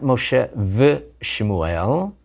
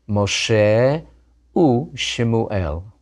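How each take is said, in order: First: The word for 'and' is the consonant 'v'. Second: The word for 'and' is the vowel 'u'. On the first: The speaker calls it wrong. "Not Moshe v Shemuel. Can't say that in biblical Hebrew" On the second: The speaker calls it right.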